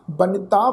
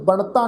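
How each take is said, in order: First: ਬਨਿਤਾ with dental n and short i, banita; dental n with sihari. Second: ਬਣਤਾ with retroflex n and no i, bantaa; wrong retroflex reading. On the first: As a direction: say ਬਨਿਤਾ as ba-ni-taa, plain n. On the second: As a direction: say ਬਣਤਾ with the tongue curled back on n. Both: Shown as a demonstration. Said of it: "ਬਣਤਾ ਨਹੀਂ ਪੜ੍ਹਨਾ".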